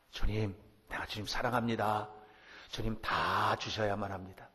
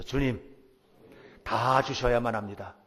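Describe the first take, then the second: First: A lightly voiced bold prayer, steady. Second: Louder, with weight on 다, falling firmly at the end; bold declaration. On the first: The preacher models a shameless prayer for the congregation, plainly. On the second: The congregation repeats the prayer after the preacher, louder and bold. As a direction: proclaim 다 주셔야만 합니다 boldly, leaning on 다. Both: Shown as a demonstration. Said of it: "한번 따라서 해보세요".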